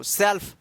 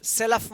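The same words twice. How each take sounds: First: सेल्फ as one syllable, "self"; correct सेल्फ. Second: सेल्फ with an extra vowel, "se-luf"; mispronounced सेल्फ. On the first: Teacher giving learners the right reading, सेल्फ as one-syllable "self". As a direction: run L straight into F in सेल्फ, no vowel between. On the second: Teacher warning learners against misreading सेल्फ, wrongly split as "se-luf". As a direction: break the "lf" of सेल्फ into two syllables. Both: Shown as a demonstration. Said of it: "सेल्फ मत पढ़िएगा इसको".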